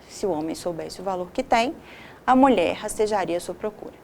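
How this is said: There is a pause after 'tem'.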